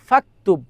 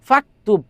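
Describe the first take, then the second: First: The u vowel is dropped, joining fa to ktub. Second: The same.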